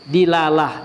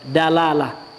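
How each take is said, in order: First: The first syllable has the vowel 'i'. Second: The first syllable has the vowel 'a'. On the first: "Bisa juga dibaca" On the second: "bi fathid dal dengan difathahkan dalnya"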